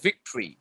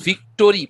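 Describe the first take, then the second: First: "ভিক্টরি" in two syllables, vik-tree; spoken pronunciation. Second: "ভিক্টরি" in three syllables, vik-to-ri; spelling pronunciation. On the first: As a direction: drop the o in "ভিক্টরি". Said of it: "কিন্তু আমরা বলি". ("ভিক্টরি", ছোট করে ভিক্ট্রি) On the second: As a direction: sound out the o in "ভিক্টরি" as spelt. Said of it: "বানান হিসেবে হয় হচ্ছে ভিক্টরি". ("ভিক্টরি", বানান অনুযায়ী ভিক-টো-রি) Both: Shown as a demonstration.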